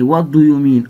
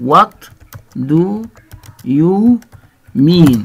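First: Said in the usual way. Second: What do you mean said one word at a time with pauses; slow word by word. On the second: Shown as a demonstration. Teacher modelling What do you mean for students, word by word. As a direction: spell out What do you mean slowly for learners.

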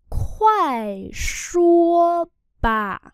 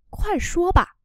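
First: Loud, very slow, stretched syllables; slow syllable-by-syllable model. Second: Said in the usual way. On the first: Shown as a demonstration. Teacher models phrase for learners, slow and loud. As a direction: spell it out slowly and firmly, sound by sound.

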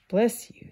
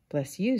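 First: Higher, brighter Ant line. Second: Grasshopper voice. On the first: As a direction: say it as the fussy ant. Ant's voice, higher. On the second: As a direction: answer as the sleepy grasshopper. Grasshopper's voice, lower. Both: Acted.

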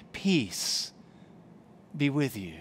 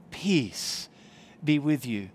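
Both takes have the same delivery.

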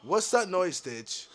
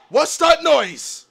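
First: Low, soft wary question; hushed question. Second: Slow question at full voice; drawn-out question. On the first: Player asking Ditch about a noise, hushed. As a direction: ask it quietly, keeping the voice down. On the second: Player asking Ditch what that noise is, drawn out. Repeats the question more fully. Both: Real, not acted.

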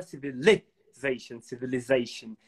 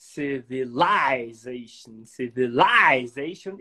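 First: "civilization" as civi-li-ZA-tion, short "li"; short i variant. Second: "Civilization" as civi-LIE-zation, LIE drawn out; long i variant. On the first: Teacher shows how others say it, short i. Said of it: "tem gente que fala". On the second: Teacher recalls another word, long i civilization. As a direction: stretch "lie" in "civilization", slowly. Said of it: "E tem gente que fala". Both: Shown as a demonstration.

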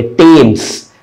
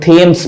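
First: टेम्स with a plain T; correct pronunciation. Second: थेम्स with an aspirated TH; common mispronunciation. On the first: Teacher naming the river in London correctly, hard T in टेम्स. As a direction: say टेम्स starting on "t", without aspiration. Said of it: "इसी तरह से एक". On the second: Teacher quoting how many people read the river's name, TH in थेम्स. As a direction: puff air on the start of थेम्स. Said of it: "बहुत से लोग थेम्स पढ़ते हैं". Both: Shown as a demonstration.

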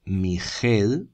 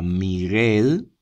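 First: Miguel as mi-JEEL, slow, with a jota; g as Spanish j. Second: Miguel as mi-GUEEL, slow and drawn out; hard g. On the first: Teacher showing the error to avoid, Miguel slowly as mi-JEL. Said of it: "para que no se diga Miguel". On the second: Teacher showing the intended sound, Miguel slowly as mi-GUEL. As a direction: stretch Miguel with a clear hard g. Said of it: "y se diga Miguel". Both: Shown as a demonstration.

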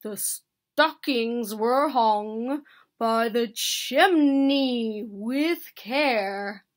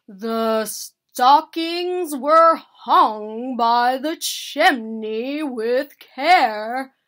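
First: Slow, measured verse; reciting. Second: Very loud, slow declaiming; loud recitation. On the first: Bear continuing his poem for Mouse, slow recitation. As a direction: declaim slowly, with weight on key words. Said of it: "Bear continued". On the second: Bear pressing the hint on sad Mouse, reciting loudly. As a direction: boom the verse out slowly, word by word. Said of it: "Bear repeated more loudly". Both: A narrator's reading.

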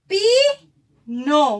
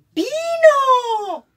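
First: Said in the usual way. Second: Pino said high and loud, cheering; excited repeat. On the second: Shown as a demonstration. (Pino dicho alto y fuerte, celebrando)

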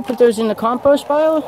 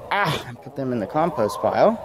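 First: High-pitched, sing-song question to the hens; talking to pets. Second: Said in the usual way. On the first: Real, not acted. Asking his hens about the compost pile, in high pet talk. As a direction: coo it at the chickens.

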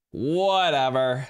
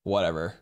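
First: Slow, louder, dismissive whatever; drawn-out whatever. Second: Said in the usual way. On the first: Real, not acted. Streamer shrugging off a TikTok ban, slow and loud. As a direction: stretch the word out, brushing it off.

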